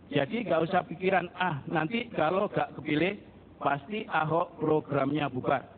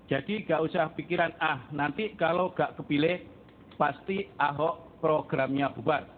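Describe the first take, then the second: The two takes are said the same way.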